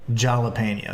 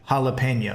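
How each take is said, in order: First: The first consonant is a J sound. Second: The first consonant is an H sound. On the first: The speaker calls it wrong. "instead of jalapeno" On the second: The speaker calls it right. "the H sound comes from a J, so that's why you say jalapeno"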